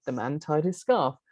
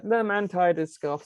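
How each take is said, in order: First: Said in the usual way. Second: "the man tied his scarf" on a nearly level pitch; flattened intonation. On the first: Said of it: "a lot more activation to that than". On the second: Shown as a demonstration. Lecturer quoting the sentence that sounds so odd, "the man tied his scarf" in flattened intonation. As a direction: drone "the man tied his scarf" evenly, barely declining. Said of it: "sounds so odd".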